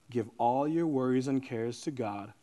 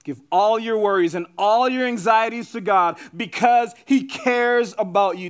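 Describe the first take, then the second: First: Low, soft reading of the verse; gentle scripture delivery. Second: Raised, driving proclamation of the verse; emphatic preaching. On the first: Preacher offers worried listeners a verse, quietly. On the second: Preacher urges worried listeners to hand over anxieties, emphatically. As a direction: press it home with force on key words. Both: Real, not acted.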